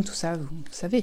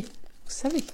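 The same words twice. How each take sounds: First: Said in the usual way. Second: Unvoiced conspiratorial whisper; secretive whispered vous savez; whispered aside. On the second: Shown as a demonstration. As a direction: lean in and whisper it. Teasing aside repeated.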